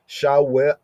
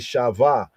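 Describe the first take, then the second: First: It uses the ancient Hebrew pronunciation. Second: It uses the modern Hebrew pronunciation. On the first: The speaker calls it right. "but actually shaw, sha, wi, ah, shawa" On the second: The speaker calls it wrong. "Modern Hebrew they say shava"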